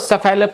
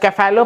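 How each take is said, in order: First: The word begins with a soft S sound. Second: The word begins with a hard K sound. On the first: "कुछ लोग इसको सेफेलो पढ़ते हैं" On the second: "सी जो है उसका pronunciation क बन जाता है"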